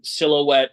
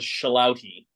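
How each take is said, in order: First: The word begins with a 'si' sound. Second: The word begins with a 'sha' sound. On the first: The speaker calls it right. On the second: The speaker calls it wrong.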